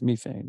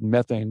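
First: It is said with a British pronunciation. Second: It is said with a North American pronunciation.

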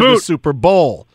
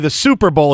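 First: The stress falls on the word bowl. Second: The stress falls on the word super. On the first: "I like how you put the, on the bowl" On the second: "most people say the Super Bowl"

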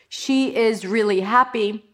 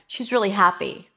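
First: She and is are said as two separate words. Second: She and is are joined into one contracted word. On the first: The speaker calls it wrong. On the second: The speaker calls it right.

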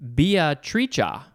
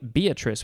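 First: The name is pronounced the Italian way. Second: The name is pronounced the usual English way. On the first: "There is another pronunciation. because this is an Italian word" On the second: "It's the name Beatrice with a capital B"

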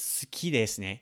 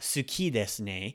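First: The u after s is swallowed. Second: The u after s is fully pronounced. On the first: The speaker calls it right. "It's suki desu ne. We're going to kind of swallow that sound up a little bit" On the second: The speaker calls it wrong. "we don't say"

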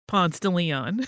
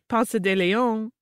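First: It uses the local Atlanta pronunciation. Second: It uses a visitor's prettier-sounding pronunciation. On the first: The speaker is from around here. "which in Atlanta we call Ponce de Leon" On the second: The speaker is not from around here. "visitors come and they say Ponce de Leon, it sounds so much prettier"

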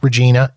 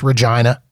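First: The middle syllable does not rhyme with the expected word. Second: The middle syllable rhymes with the expected word. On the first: The speaker calls it wrong. "It is not pronounced Regina" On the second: The speaker calls it right. "It is pronounced Regina, and it rhymes with what you think it rhymes with"

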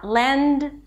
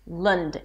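First: The vowel is an e sound. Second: The vowel is a schwa sound. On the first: The speaker calls it wrong. "not Lend" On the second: The speaker calls it right. "It's an L sound, a schwa, an ND"

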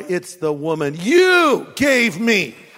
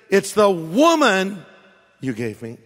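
First: The stress is on the word you. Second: The stress is on the word woman.

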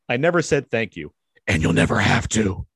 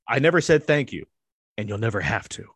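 First: It is said in a put-on character voice. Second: It is read in the speaker's normal voice.

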